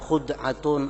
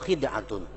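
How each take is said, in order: First: The first vowel is u. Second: The first vowel is i.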